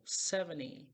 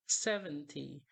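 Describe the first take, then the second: First: Seventy with the T left out, "seveny"; slow seventy gliding from N into Y; seventy, the T swallowed; T dropped. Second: Seventy with the T sounded; seventy, every sound spoken; clear T. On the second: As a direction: say seventy with a crisp T. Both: Shown as a demonstration. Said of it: "é muito comum que a gente oculte o T".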